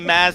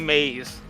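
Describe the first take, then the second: First: The vowel sounds like the one in 'jazz'. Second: The vowel sounds like the one in 'days'. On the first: The speaker calls it right. "Instead of saying Maz" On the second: The speaker calls it wrong. "that's the other mistake people always make"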